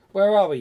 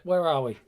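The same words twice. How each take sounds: First: Louder, higher, mock-dramatic ask; loud theatrical question. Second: Said in the usual way. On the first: Shown as a demonstration. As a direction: call it out like a stage line. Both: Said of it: "he says".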